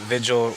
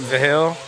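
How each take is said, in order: First: The name sounds like the English word vigil. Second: The name does not sound like vigil. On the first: The speaker calls it wrong. "Probably call it Vigil. We have a print shop in my hometown that's spelled like that" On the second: The speaker calls it right. "but I'll try to do better"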